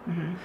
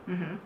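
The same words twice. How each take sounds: Both takes have the same delivery.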